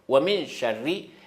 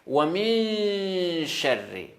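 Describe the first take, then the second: First: The n sound is rushed into the sh. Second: The n sound is held before the sh. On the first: The speaker calls it wrong. "Vite comme ça, ... c'est pas bon" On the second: The speaker calls it right. "on prolonge un peu parce que les nouns, après noun, c'est shin"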